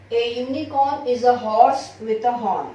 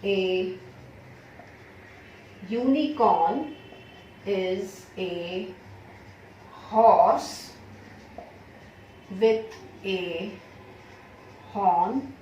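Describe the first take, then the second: First: Said in the usual way. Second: Slow, word by word, each word set apart; slow dictation. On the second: Shown as a demonstration. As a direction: dictate it to the class slowly. (धीरे धीरे बोलकर लिखवाना)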